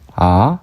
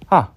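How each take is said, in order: First: The pitch rises from middle to high. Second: The pitch falls sharply from high. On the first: "올라가는 성조" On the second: "떨어지는 성조"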